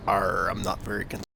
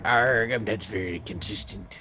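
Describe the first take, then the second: First: Weak pirate growl, barely there. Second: Lightly voiced pirate; a hint of pirate arr. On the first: Acted. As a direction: try a pirate accent and fail. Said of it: "You don't sound like a pirate". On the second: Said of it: "I thought you were a pirate".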